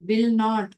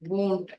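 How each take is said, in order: First: Both words are said in full. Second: The words are shortened into one syllable.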